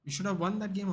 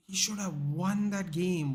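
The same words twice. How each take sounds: First: Said in the usual way. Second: Slow, higher, every word stressed; slow emphatic repeat. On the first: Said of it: "He's like". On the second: Retold or imitated. Streamer repeating a fan's claim in disbelief, slowly. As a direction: spell out each word of "He should have won that game". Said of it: "was the words that came out of his mouth".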